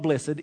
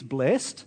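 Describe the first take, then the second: First: The word is said with two syllables. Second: The word is said with one syllable. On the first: The speaker calls it wrong. "It is not blessed" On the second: The speaker calls it right. "it's blessed"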